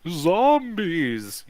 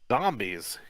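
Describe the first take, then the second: First: It is said in a spooky voice. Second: It is said in a plain voice.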